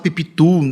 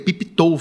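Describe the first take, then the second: First: The last syllable sounds like 'too'. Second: The last syllable sounds like 'toe'. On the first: The speaker calls it wrong. "Todo mundo fala pipitu, e não era" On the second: The speaker calls it right. "tou, ela é tou"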